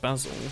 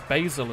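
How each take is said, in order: First: The word is said the non-American way. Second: The word is said the American way. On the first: "instead of basil" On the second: "In America it says basil"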